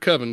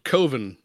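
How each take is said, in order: First: The first vowel is short, like in oven. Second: The first vowel is long, like in go. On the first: The speaker calls it wrong. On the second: The speaker calls it right.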